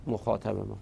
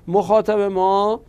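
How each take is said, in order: First: Said in the usual way. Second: مخاطب ما said slowly, higher and louder, stress on مخاطب; emphatic repeat. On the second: Shown as a demonstration. Teacher drilling the new term for students, slow loud emphasis. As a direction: lean hard on مخاطب ما to drive it home. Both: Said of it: "teacher repeats key term".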